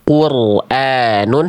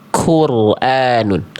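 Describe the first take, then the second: First: The first consonant has no puff of breath. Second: The first consonant has a puff of breath. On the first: "kof gak keluar becek nafas, gak keluar udara" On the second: "kaf ada percikan nafasnya"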